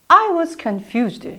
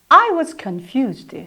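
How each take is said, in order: Both takes have the same delivery.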